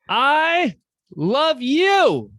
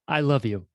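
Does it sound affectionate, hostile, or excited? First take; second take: excited; affectionate. First: It is said loudly and excitedly to a crowd. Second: It is said warmly, as to a friend.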